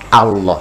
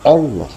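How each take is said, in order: First: The first vowel is a clear a sound. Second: The first vowel is an o sound. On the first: The speaker calls it right. "hamzahnya mesti jelas a" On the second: The speaker calls it wrong. "jangan o"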